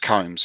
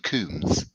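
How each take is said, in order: First: The name is said in a plain, ordinary way. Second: The name is said in a posh way. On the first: "It's Combs, yeah" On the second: "it's Coombs if you're posh"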